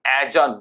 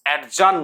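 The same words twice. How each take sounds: First: অ্যাজান as a-jan, no d; loud, clear a-jan for অ্যাজান; correct pronunciation. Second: অ্যাডজান with the d sounded, ad-jan; loud stopped d before j in অ্যাডজান; deliberate ad-jan for অ্যাডজান; wrong pronunciation. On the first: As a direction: glide straight to j in অ্যাজান. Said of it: "উচ্চারণ হবে". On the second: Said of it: "অ্যাডজান নয়". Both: Shown as a demonstration.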